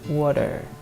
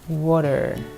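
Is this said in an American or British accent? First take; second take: American; American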